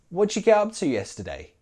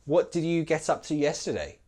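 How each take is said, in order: First: The words run together, with 'did' reduced. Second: Each word is said fully, including 'did'. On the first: "You don't have to say it like that, but you will hear it" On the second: "That's fine, and that's perfect"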